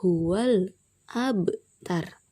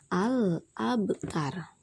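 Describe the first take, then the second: First: The article's 'a' is dropped, joining the word before. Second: The article starts with a clear 'a' sound. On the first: "alifnya itu tidak terbaca" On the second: "pada permulaan kata dibaca"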